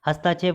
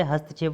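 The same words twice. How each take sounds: First: हस्तक्षेप as "hastaa-chhep"; wrong added vowel. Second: हस्तक्षेप as "hast-chhep"; short middle vowel. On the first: Teacher showing the error, "hastaa" in हस्तक्षेप. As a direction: lengthen "taa" in हस्तक्षेप. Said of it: "गलत है". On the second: Teacher correcting students, brief "hast" in हस्तक्षेप. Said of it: "होता है". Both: Shown as a demonstration.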